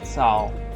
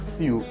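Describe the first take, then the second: First: The vowel sounds like 'ow'. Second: The vowel sounds like 'yoo'. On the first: The speaker calls it right. "it's Sao" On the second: The speaker calls it wrong. "it's not Siu"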